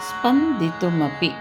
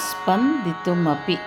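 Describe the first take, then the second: No difference in how they are said.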